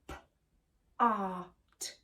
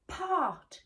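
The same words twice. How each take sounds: First: PART split into p, ar, t; segmented phonics demo of "part"; sounded out. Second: PART as one word, high then falling; blended word. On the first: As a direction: say P, AR, T with gaps between. Phonics teacher segments a word. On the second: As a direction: say PART whole, starting high. Phonics teacher blends the sounds. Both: Shown as a demonstration.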